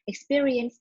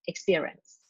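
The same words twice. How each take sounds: First: Every syllable of the word is pronounced. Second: One syllable of the word is dropped. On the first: The speaker calls it right. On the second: The speaker calls it wrong.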